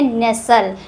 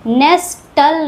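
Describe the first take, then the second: First: नेसल as nes-al, no t; silent-t pronunciation. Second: नेस्टल as nes-tal, t clearly heard; t wrongly sounded. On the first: Teacher showing learners how nestle is read, silent-t pronunciation. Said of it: "हम लोग पढ़ते हैं नेसल". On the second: Teacher showing learners the misreading of nestle, t wrongly sounded. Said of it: "नेस्टल नहीं पढ़ते हैं". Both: Shown as a demonstration.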